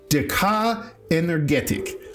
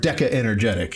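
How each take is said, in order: First: The name is said with a non-English pronunciation. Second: The name is said with an English pronunciation. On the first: "She swears it's Decca Energetic" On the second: "in English"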